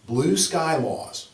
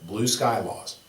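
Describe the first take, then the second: First: Slow, drawn out, stress on "Blue"; teacher stressing "Blue" in "Blue sky laws"; slow emphasis. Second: Said in the usual way. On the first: Shown as a demonstration. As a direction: lean on "Blue" and stretch "Blue sky laws" slowly.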